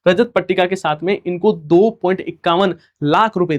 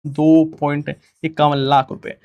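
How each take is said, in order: First: Said in the usual way. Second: Slowed down, each number spelled out; slow emphatic repeat. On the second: Shown as a demonstration. Teacher repeats the prize amount slowly for the class. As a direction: say the amount again slowly so students note it. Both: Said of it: "और उसके साथ ध्यान रखना है".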